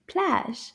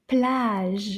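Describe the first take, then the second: First: "Plage" shorter, in one quick beat; a little faster. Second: "Plage" with a drawn-out vowel and lingering ending; slower demo. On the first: Teacher repeating the word for children, a little faster. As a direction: say "Plage" briskly, without stretching it. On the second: Teacher modelling the word for children, slow and careful. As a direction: stretch out "Plage" for repeating. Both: Shown as a demonstration. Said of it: "we'll say it a little faster".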